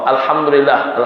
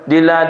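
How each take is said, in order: First: Every syllable is said in full. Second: Only the last syllables are heard. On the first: The speaker calls it right. "Betul-betul kan?" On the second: The speaker calls it wrong. "Bukan alhamdulillah"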